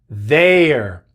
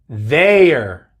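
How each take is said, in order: The two takes are said the same way.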